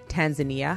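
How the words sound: It is said the American and Canadian way.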